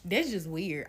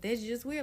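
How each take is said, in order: First: It is said in a rude, disrespectful tone. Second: It is said in a disappointed tone.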